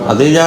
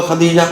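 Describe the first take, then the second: No difference in how they are said.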